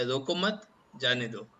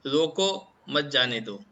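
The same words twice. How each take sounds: First: Group "रोको मत" together, pause, then "जाने दो"; "रोको मत, जाने दो" with a stop after "मत". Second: Slow, with the stress and a break after "रोको", then "मत जाने दो"; "रोको, मत जाने दो" with a stop after "रोको"; pause after रोको. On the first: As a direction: stress on "मत" and a break before "जाने दो". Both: Shown as a demonstration. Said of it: "तो पूरा चीज ही चेंज हो जाएगा".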